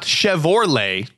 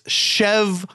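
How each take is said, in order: First: The middle syllable is 'or', O before R. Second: The middle syllable is 'ro', R before O. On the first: The speaker calls it wrong. "not Chevrolet" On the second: The speaker calls it right. "the back of the truck said Chevrolet. That it's Chevrolet"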